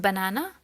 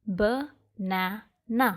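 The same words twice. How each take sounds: First: Said in the usual way. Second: "ba-na-na" slowly, in three separate beats; teacher's slow count through "ba-na-na"; split into syllables. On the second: Shown as a demonstration. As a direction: sound out "ba-na-na" with a gap after each syllable. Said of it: "there are three syllables".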